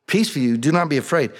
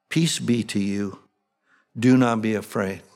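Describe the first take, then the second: First: Said in the usual way. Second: Gentle angel-like reassurance. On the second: Acted. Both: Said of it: "Sounds like what the angels would say".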